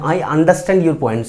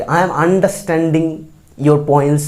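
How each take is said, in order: First: I understand your points said very slowly for the class; slow, careful correct sentence. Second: I am understanding your points drawn out very slowly; slow, careful wrong sentence. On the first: Teacher models the correct sentence, slowly. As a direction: spell out each word for the learners. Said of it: "বুঝি বা বুঝতে পারছি". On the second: Teacher shows the wrong form to avoid, slowly. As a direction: model the mistake slowly for the class. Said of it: "এটা কিন্তু বলি না". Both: Shown as a demonstration.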